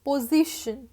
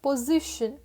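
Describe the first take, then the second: The two takes are said the same way.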